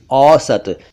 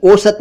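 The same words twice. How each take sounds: First: "औसत" with open au; correct au vowel. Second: "औसत" mispronounced "osat", higher, closed o; wrong o vowel. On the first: Teacher corrects to औसत, au sound. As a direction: say "औसत" as "aw-sat". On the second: Teacher rejects mistaken औसत, o sound. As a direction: start "औसत" with "oh". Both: Shown as a demonstration. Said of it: "औसत नहीं".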